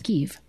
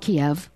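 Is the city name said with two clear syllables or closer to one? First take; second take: one; two. First: The city name is said closer to one syllable. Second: The city name is said with two clear syllables. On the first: This is how people who have been there say it. The speaker calls it right. "if you've ever been there, you know it's Kiev" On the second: This is how most people say it. The speaker calls it wrong. "Most people call it Kiev"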